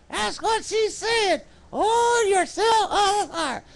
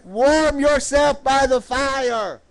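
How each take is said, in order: First: High, slow puppet sidekick. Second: Said in the usual way. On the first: Pretend. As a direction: answer in a high-pitched puppet voice, drawn out. Puppet Rowdy answers the preacher.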